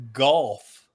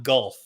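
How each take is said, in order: First: Golf said with an open "aw" vowel, like gawlf; Alabama pronunciation. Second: Gulf said with a short "uh" vowel; standard pronunciation. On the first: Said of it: "I thought you were saying". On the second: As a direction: say gulf plainly, rhyming with dull. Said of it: "not gulf". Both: Shown as a demonstration.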